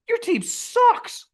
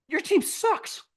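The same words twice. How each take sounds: First: Very slow, high, stretched "sucks"; slow high-pitched sneer; drawn-out taunt. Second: High, mocking disbelief; pitched-up sneer at the owner; incredulous mock taunt. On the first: Retold or imitated. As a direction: drag each word out high and mocking. Mocking angry owner again. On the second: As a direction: squeal it like you can't believe him. Mocking angry owner at fans.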